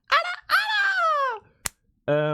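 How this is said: It is said in a cute voice.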